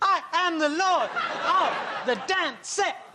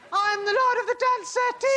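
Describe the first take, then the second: First: It is said in short, choppy, separated bursts. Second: It is said in a high-pitched voice. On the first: "Saying it in a staccato fashion while dancing around" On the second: "Saying it in a high voice"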